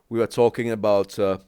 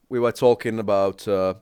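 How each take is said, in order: Both takes have the same delivery.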